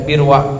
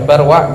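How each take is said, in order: First: The first vowel is a close i. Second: The first vowel is an open a. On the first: "bisa dibaca Birwa" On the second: "Bisa dibaca Barwa"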